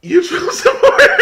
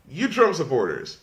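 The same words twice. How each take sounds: First: High, loud, cracking up mid-phrase; real laughter breaking the words; laughing. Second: Said in the usual way. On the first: Real, not acted. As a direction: try to say it but lose it to laughter. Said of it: "I'm sorry". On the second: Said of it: "Let me try again".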